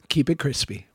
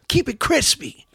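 First: It is said in his ordinary voice. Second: It is said in a Casey Jones voice.

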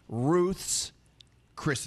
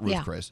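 First: An s sound follows Ruth before Chris. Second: No s sound follows Ruth before Chris. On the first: The speaker calls it right. "It's Ruth's Chris Steakhouse" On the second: The speaker calls it wrong. "not Ruth Chris"

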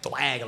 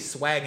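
First: The word begins with a lisped th sound. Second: The word begins with a plain s sound. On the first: "like swag with a lisp" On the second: "you take the S off of swag"

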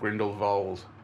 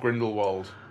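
First: The name is said in a posh, haughty way. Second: The name is said in a plain, ordinary way.

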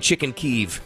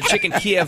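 First: The name uses the Ukrainian pronunciation. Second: The name uses the Russian pronunciation. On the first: This is the form the speaker refuses to use. "I'm not saying chicken Kyiv" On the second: This is the form the speaker has always used. "I'm saying chicken Kiev my whole life"

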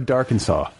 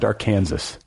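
First: The name ends like the state Arkansas. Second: The name ends like the state Kansas. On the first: The speaker calls it right. "Am I pronouncing that right?" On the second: The speaker calls it wrong. "It's not Dark Kansas"

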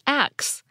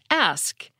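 First: The word ends with a k then s sound. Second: The word ends with an s then k sound. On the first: "with the S and the K sound transposed" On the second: "You'll usually hear this pronounced ask"

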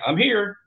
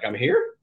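First: The voice falls at the end like a statement. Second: The voice rises at the end like a question. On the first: The speaker is announcing arrival. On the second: The speaker is unsure whether this counts as arriving.

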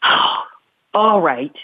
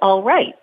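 First: It is said with a frustrated sigh. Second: It is said plainly without frustration.

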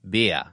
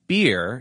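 First: The final R is dropped, Boston style. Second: The final R is pronounced.

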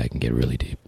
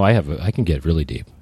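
First: It is said in a very deep, low voice. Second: It is said in a normal speaking voice.

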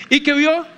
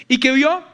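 The two takes are said the same way.

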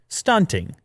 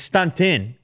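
First: The word ends with the full final G sound. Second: The word ends without the final G sound. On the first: "I actually like pronouncing it fully though" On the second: "You don't put the G at the end"

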